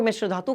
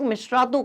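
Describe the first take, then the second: First: "मिश्र धातु" with a clear "ध" starting the second word; two-word pronunciation. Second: "मिश्रातु" run together, with no "ध" sound; merged one-word pronunciation. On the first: Teacher showing students one accepted form, "मिश्र धातु" said as two words. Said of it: "कुछ लोग मिश्र धातु कहते हैं". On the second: Teacher showing students the other accepted form, "मिश्रातु" as one merged word. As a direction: blend "मिश्र" and "धातु" into "मिश्रातु". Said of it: "कुछ लोग मिश्रातु कहते हैं". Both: Shown as a demonstration.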